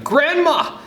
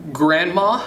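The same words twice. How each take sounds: First: High, loud call for grandma; excited child's shout. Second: Questioning, rising call to grandma; hesitant, higher-pitched question; tentative opening. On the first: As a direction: yell it out urgently, pitched way up. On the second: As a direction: begin uncertainly, lifting at the end. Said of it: "you begin". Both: A narrator's reading.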